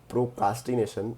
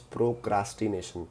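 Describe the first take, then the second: First: The second syllable sounds like 'ca' without r. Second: The second syllable sounds like 'cra' with r. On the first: The speaker calls it wrong. "it is not procrastination" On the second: The speaker calls it right. "it is procrastination"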